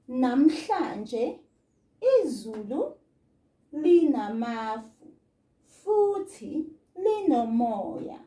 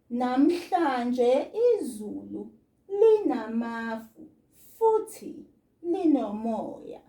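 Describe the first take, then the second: First: It is read slowly with long breaks between words. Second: It is read smoothly at a normal speaking pace.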